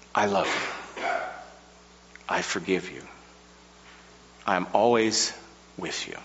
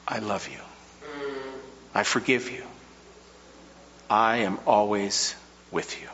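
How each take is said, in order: First: Soft, tender divine reassurance fading to near silence; a lightly voiced loving God; God's tender promise. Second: Hushed, softer tender reassurance; a quieter echo of a loving God; God's tender promise. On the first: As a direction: speak it like a gentle whisper from above. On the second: Acted. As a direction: let each promise fall gently, almost breathed.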